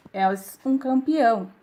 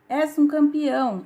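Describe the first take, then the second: First: Louder, drawn-out echo; echoed shout. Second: Raised voice, higher and louder; narrated shout. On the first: Mountain answers the father, slow echoed shout. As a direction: repeat it slowly and louder. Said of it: "E a voz responde". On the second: Father calls to the mountain, moderate shout. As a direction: call it out loud and high. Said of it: "De novo o homem grita". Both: A narrator's reading.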